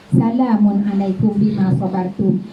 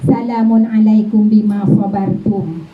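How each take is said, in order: First: Said in the usual way. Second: Slow, chanted "Salamun alaikum bima sabartum", drawn out like recitation; recited greeting. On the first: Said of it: "repeat of the recited greeting". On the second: Shown as a demonstration. Voicing the angels greeting believers in paradise, in a slow, chanted way. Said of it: "repeated plainly after".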